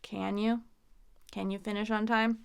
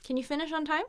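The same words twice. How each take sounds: First: Doubtful, weight on a full CAN; condescending. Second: Higher, light, CAN unstressed; neutral question. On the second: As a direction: ask it plainly with a quick reduced CAN. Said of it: "It's more neutral". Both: Shown as a demonstration.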